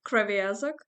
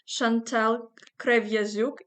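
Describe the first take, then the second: First: The surname is said the common non-Ukrainian way. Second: The surname is said with Ukrainian pronunciation. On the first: "a lot of people usually pronounce your surname like" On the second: "if we pronounce it in Ukrainian"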